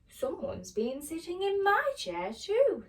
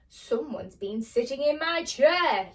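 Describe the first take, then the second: First: It is said in a medium-sized voice. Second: It is said in a big, booming voice.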